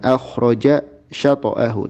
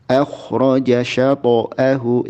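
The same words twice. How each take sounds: First: A pause separates the two words. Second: The two words run together without pause. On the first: The speaker calls it wrong. "Jangan akhraja syata'ahu" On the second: The speaker calls it right. "tapi langsung"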